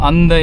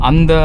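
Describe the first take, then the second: No difference in how they are said.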